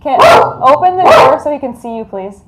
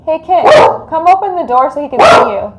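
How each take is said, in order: First: Repeated loud call. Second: Loud, fast call through the house. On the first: Calling Kit a second time to open the door, insistent and loud. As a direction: call again, firmer and louder. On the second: Calling to Kit to open the door so the dog sees him, loud. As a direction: call out to Kit in the next room. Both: Real, not acted.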